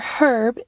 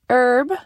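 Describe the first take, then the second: First: It is said the British English way. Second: It is said the non-British way.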